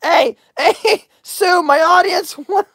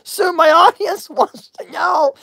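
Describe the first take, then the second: First: Breaking into laughter before finishing; high voice that cracks into a laugh; laughing mid-question. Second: Said in the usual way. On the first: Real, not acted. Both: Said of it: "I can't even talk".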